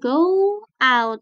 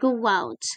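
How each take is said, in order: First: The two words are said separately, with no glide. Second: A w glide joins the two words together. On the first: The speaker calls it wrong. "bukan go out" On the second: The speaker calls it right. "Tapi go out"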